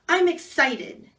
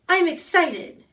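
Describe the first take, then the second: First: It is said flatly, without excitement. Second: It is said with more excitement.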